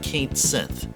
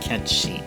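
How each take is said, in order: First: The name is said as 'Kate Sith'. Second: The name is said as 'Ketchi'. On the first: The speaker calls it wrong. "this is not Kate Sith" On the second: The speaker calls it right. "This is actually more like Ketchi"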